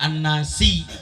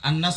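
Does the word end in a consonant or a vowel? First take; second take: vowel; consonant. First: The word ends with an added final i vowel. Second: The word ends on the consonant s. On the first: The speaker calls it wrong. "nggak An-Nasi" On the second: The speaker calls it right. "wakaf wakaf sekalian"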